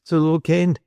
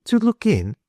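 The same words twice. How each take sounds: First: Put-on higher-pitched, mildly nervous boy; tremulous. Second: TO LOOK IN echoed very high, as a question. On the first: Caught boy explains why he came, tremulous. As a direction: offer it timidly, as a lightly voiced boy. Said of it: "he said tremulously". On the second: Woman echoes the boy's answer, high questioning "To look in". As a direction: repeat "To look in" in a much higher, puzzled voice. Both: A narrator's reading.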